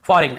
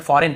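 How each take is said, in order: First: "फॉरेन" with the G sounded, fo-reg-n; wrong pronunciation. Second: Said in the usual way. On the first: Shown as a demonstration. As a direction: voice a hard g inside "फॉरेन". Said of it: "फॉरेन ऐसे नहीं पढ़ने". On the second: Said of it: "फॉरेन पढ़ने".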